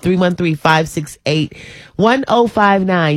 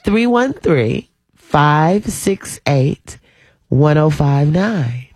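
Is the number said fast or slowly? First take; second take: fast; slowly. First: The number is said fast. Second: The number is said slowly.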